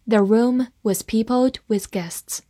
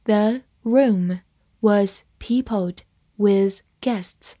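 First: Said in the usual way. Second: Very slow, word by word with pauses; slow read-along. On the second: Shown as a demonstration. Teacher models the sentence for students to follow, slow and separated. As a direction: read it slowly, separating each word for learners. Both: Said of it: "慢慢来读".

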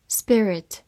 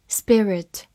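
The two takes are said the same way.

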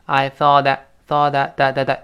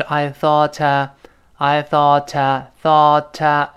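First: "thought a" softened to "thought-da"; voiced linking t. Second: "thought" linked to "a" with a crisp t, as "thought-ta"; unvoiced linking t. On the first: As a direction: turn the t of "thought" into a light d before "a". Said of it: "轻轻会浊化". (“thought a”的t轻轻浊化成d) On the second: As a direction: slowly release "thought" into a clear "ta". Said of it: "本来是I thought". (“thought”连读成清音“ta”) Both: Shown as a demonstration.

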